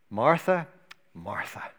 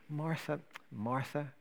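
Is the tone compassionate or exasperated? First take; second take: exasperated; compassionate. First: It is said with weary exasperation. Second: It is said with gentle compassion.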